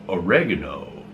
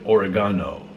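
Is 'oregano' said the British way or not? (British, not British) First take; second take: not British; British. First: It is said in a non-British way. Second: It is said in the British way.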